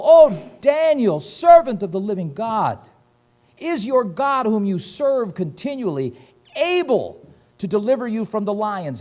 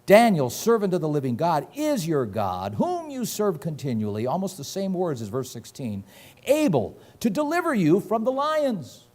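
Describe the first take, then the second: First: A king wailing for his friend at the den; lamenting cry. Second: Questioning. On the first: Acted. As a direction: cry out to Daniel in anguish. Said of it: "he cried with a lamentable voice". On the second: Retold or imitated.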